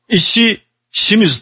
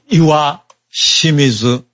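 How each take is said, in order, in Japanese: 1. 最初の部分は "ishi" と読みます。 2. 最初の部分は "iwa" と読みます。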